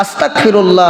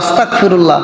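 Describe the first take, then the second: Both takes have the same delivery.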